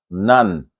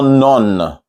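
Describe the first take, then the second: First: The vowel sounds like 'ah'. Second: The vowel sounds like 'or'. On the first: The speaker calls it right. "It's a kind of ah" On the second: The speaker calls it wrong. "It's not none. Not the O is not or"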